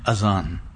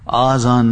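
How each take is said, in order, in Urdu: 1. پہلا حرف علت چھوٹا a کی آواز ہے۔ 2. پہلا حرف علت لمبا aa کی آواز ہے۔ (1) "یہ اذان ہے" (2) "آذان نہیں ہے"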